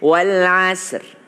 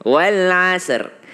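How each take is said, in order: The two takes are said the same way.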